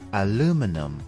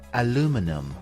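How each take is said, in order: Both takes have the same delivery.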